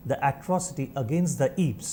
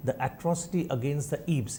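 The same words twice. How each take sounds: First: Slow, spaced-out dictation. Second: Slower, softer dictation repeat; slow, quieter repeat. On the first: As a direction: say it slowly so they can write. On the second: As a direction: repeat it again slowly for writers. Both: Shown as a demonstration. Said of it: "repeated for dictation".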